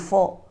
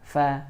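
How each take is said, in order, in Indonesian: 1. Bunyinya tebal, bibir membulat. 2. Bunyinya tipis, bibir tersenyum. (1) "membacanya fa jadi tebal" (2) "huruf fa itu dia tipis"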